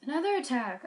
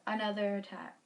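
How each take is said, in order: First: "Another attack" said louder, higher, falling; louder take. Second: Said in the usual way. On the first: Shown as a demonstration. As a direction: sister announcing a new attack, louder dramatic read.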